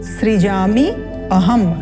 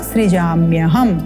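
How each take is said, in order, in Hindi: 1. दोनों शब्द अलग-अलग कहे गए हैं। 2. दोनों शब्द मिलाकर एक कर दिए गए हैं।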